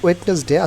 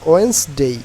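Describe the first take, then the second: First: Three syllables, with the middle d sounded. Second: Two syllables, with no middle d sound. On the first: The speaker calls it wrong. "একটি ভুল উচ্চারণ করতাম" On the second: The speaker calls it right. "আমরা এটা উচ্চারণ করবো এখন থেকে"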